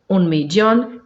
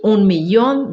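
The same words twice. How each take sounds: First: The ll sounds like a y consonant. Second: The ll sounds like a light ee glide. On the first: "Pode ser também como Y" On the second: "Eu leio como I"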